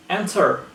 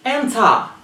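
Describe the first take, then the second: First: "enter" as "en-ter"; slow "enter" with curled R; pronounced R. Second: "Enter" as "en-tah"; higher "Enter", open ah ending; dropped R. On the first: Teacher showing what to avoid, "enter" with final R. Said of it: "not enter". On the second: Teacher showing British speech, "Enter" without R. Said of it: "they don't pronounce the R". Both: Shown as a demonstration.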